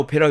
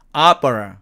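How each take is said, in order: First: It is said as a Korean loanword. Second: It is said with English vowel sounds. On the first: The speaker calls it wrong. "우리는 오페라 오페라 그러지만" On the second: The speaker calls it right. "이 단어는 opera"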